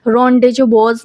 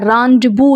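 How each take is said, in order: First: Rendezvous read letter by letter as spelt, "ren-dez-vous" with z and s sounded; teacher shows the wrong reading "ren-dez-vous"; wrong pronunciation. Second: Rendezvous said the French way, "ron-day-voo", silent z and s; teacher models rendezvous as "ron-day-voo"; correct pronunciation. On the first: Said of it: "नहीं पढ़ते हैं इसको". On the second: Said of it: "rendezvous इसको पढ़ते हैं". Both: Shown as a demonstration.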